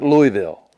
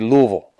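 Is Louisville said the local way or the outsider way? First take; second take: outsider; local. First: It is said the way outsiders say it. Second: It is said the local Kentucky way. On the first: The speaker calls it wrong. "not Louisville" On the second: The speaker calls it right. "you say Louisville"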